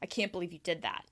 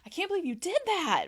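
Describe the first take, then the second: First: It ends low and sounds disappointed. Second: It does not end low and sounds surprised. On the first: The speaker disapproves of what was done. "That ends low" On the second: The speaker did not expect what was done. "That can be more surprise"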